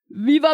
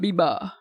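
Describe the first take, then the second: First: The word begins with a v sound. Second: The word begins with a b sound. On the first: The speaker calls it right. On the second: The speaker calls it wrong.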